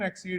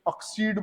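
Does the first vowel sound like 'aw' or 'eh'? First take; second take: eh; aw. First: The first vowel sounds like 'eh'. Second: The first vowel sounds like 'aw'. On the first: The speaker calls it right. "दोनों का pronunciation एक्सीड ही है" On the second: The speaker calls it wrong. "कुछ लोग इसको जबरदस्ती ऑक्सीड बोल देते हैं"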